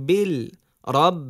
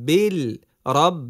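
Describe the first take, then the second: The two takes are said the same way.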